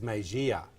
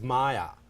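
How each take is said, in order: First: The name is said with three syllables. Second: The name is said with two syllables. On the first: The speaker calls it wrong. "I read it as Mejia" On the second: The speaker calls it right. "it was Maya"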